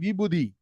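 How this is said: It is pronounced the way Tamil speakers say it. The speaker calls it wrong. "don't say Vibhuti, uh, like in Tamil"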